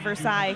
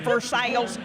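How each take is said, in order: First: The word ends like 'sigh', the French way. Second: The word ends like 'sails', the Kentucky way. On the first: A newcomer said it. The speaker calls it wrong. "the first time that I moved here and said" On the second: Locals say it this way. The speaker calls it right. "that is a Kentucky thing"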